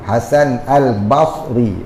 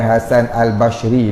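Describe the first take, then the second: First: The second name is said with an emphatic 's' sound. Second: The second name is said with an 'sh' sound. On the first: The speaker calls it right. "Bukan shin ya, sad" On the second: The speaker calls it wrong. "Bukan Hasan Al-Bashri tu"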